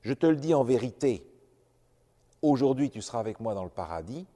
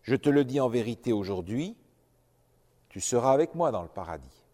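First: The pause comes right before 'aujourd'hui'. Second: The pause comes right after 'aujourd'hui'.

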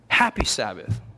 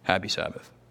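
First: It is said warmly and happily. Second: It is said flatly, without happiness.

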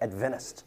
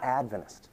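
First: The stress is on the second syllable. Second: The stress is on the first syllable. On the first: The speaker is not a member of the church. The speaker calls it wrong. "They'll put the emphasis on the wrong syllable" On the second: The speaker is a member of the church. The speaker calls it right. "not Adventist"

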